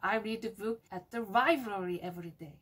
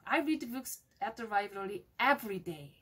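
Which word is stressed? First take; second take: library; every day. First: The word library carries the strongest stress. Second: The words every day carry the strongest stress. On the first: The reading happens at the library, nowhere else. "library를 강조하면 돼요" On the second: Going every day is special and hard. "every day를 강조하면 돼요"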